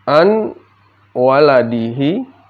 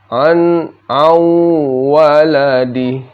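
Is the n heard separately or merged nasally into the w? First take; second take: separate; merged. First: The n is pronounced clearly before the w. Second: The n merges into a held, nasal w.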